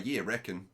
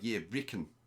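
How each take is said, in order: First: It is spoken in an Australian accent. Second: It is spoken in a New Zealand accent. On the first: "an Aussie will say" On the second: "a Kiwi will say"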